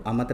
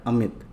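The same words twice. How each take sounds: First: अमत with a short a after म; अमत, ending in mat instead of mit; misspelt reading. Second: Said in the usual way. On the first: Shown as a demonstration. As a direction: say अमत without the i vowel. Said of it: "अमत नहीं होता है". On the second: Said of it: "क्या होता है?".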